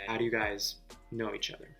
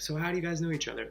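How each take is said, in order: First: It is asked in a probing, suspicious way. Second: It is asked casually and innocently.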